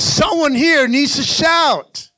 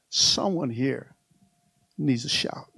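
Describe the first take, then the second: First: Slow, emphatic push to rouse the church; raised preaching cry. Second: Hushed. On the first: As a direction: call it out to stir the crowd. Repeats the quiet line as shout. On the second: Preacher repeats it softly, then loudly. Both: Shown as a demonstration.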